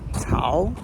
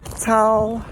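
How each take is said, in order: First: It is said in the second tone. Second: It is said in the first tone. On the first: "first through fourth tone" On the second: "first through fourth tone"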